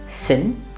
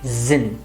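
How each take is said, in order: First: The word begins with a voiceless hissing s. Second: The word begins with a voiced buzzing z. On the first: The speaker calls it wrong. "Not sin" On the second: The speaker calls it right. "rather zin"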